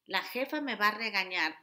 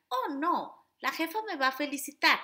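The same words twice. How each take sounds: First: Lightly acted worried self-talk; worried inner voice. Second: Higher, bright mock-optimistic reply; lightly hammed-up positive thinking; cheery positive voice. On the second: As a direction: play the forced-cheerful motivator. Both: Shown as a demonstration. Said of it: "hago el juego de voces".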